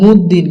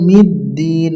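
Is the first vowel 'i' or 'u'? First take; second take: u; i. First: The first vowel is a 'u' sound. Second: The first vowel is an 'i' sound. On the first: The speaker calls it wrong. "অনেকজন পড়ি আমরা মুদ্দিন, কিন্তু আসলে এই যে মুদ্দিন নয়" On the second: The speaker calls it right. "এই জায়গায় হবে মিদ্দিন"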